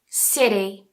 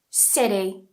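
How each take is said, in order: First: It has an American flapped T sound. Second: The same.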